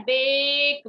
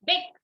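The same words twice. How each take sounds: First: बेक stretched out, like "baaake"; long vowel in बेक. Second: बेक cut short, like "beck"; short vowel in बेक. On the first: Teacher shows the class how it is said, long-vowel बेक. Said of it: "क्या बोलते हैं?". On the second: Teacher shows how we don't say it, short-vowel बेक. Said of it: "बेक नहीं बोलते हैं ना हम". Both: Shown as a demonstration.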